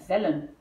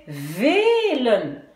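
First: VELLEN avec un E bref et ouvert, «vèl-len»; E court. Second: VELEN avec un E très étiré, «vee-len»; E long. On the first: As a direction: garder courte la première voyelle de VELLEN. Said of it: "je dois doubler le L". (VELLEN, dit bref, sans étirer) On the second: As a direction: allonger fortement le E de VELEN. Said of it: "je vais prononcer velen". (VELEN, première voyelle longue) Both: Shown as a demonstration.

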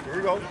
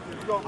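The two takes are said the same way.

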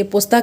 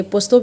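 First: पोस्ता ending in a long "aa"; पोस्ता, last vowel "aa" rather than "o"; variant name pronunciation. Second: पोस्तो ending in a rounded "o"; पोस्तो, last vowel "o" rather than "aa"; variant name pronunciation. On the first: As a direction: say पोस्ता with an open final "aa" vowel. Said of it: "बहुत सारे लोग इसे पोस्ता कहते हैं". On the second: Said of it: "इसे पोस्तो भी कहते हैं". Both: Shown as a demonstration.

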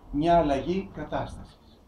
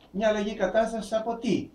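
First: Said in the usual way. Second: Same phrase again, pitched higher as a question; higher questioning repeat. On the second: Shown as a demonstration. Preacher repeating the phrase as a question to the congregation, higher. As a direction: lift it up and ask it.

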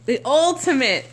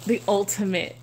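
First: Emphatic, swelling "ultimate"; stress on ultimate. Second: Said in the usual way. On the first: Real, not acted. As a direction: lean hard on the first syllable of "ultimate". Repeats phrase with added emphasis.

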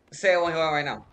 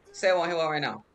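No difference in how they are said.

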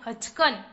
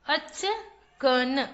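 First: Said in the usual way. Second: achkan stretched slowly as अ-च-क-न; syllable by syllable. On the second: Shown as a demonstration. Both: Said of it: "चलिए बच्चों, पढ़ते हैं।".

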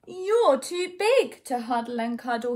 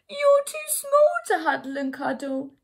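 First: A hint of a dismayed child; storybook boy, only slightly raised; lightly voiced small boy. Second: Loud, high-pitched mock wail; hammed-up upset bear voice; bawling bear. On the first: Boy to his too-big teddy, mildly dismayed. Eddie complains to giant teddy. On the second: Bear to its too-small teddy, hammed-up bawling. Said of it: "the voice bawl". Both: A narrator's reading.

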